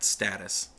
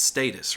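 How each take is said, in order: First: The word is said with an American pronunciation. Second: The word is said with a British pronunciation. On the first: "if you're in America, we call that status" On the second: "If you're in England, it's status"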